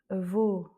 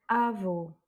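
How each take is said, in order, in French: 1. L'accent tombe sur la dernière syllabe. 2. L'accent tombe sur la première syllabe. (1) "C'est bien vos" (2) "et non pas"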